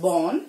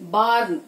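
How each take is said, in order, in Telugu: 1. ఇది గుండ్రంగా ఉన్న 'aw' ధ్వని. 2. ఇది తెరిచిన, గుండ్రంగా లేని 'aa'. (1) "it's born" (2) "barn కాదు"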